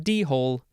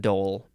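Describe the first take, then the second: First: It is said as two syllables, dee-hole. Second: It is said as one syllable, dole. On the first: The speaker calls it wrong. "It's not a D-hole" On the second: The speaker calls it right. "it's a dole"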